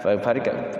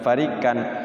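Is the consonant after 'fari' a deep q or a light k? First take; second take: light k; light k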